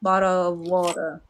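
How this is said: The t sounds like a soft d or r.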